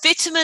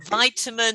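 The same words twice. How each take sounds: First: It is said with a British pronunciation. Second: It is said with an American pronunciation. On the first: "vitamin is U K" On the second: "vitamin is U S"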